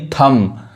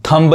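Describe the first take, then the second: First: थंब ending on M, B left silent. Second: थंब with the final B sounded; B pronounced. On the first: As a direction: close थंब on M with no B. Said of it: "यानी बी नहीं पढ़ाएगा". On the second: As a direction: release an audible B at the end of थंब. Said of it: "थंब नहीं". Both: Shown as a demonstration.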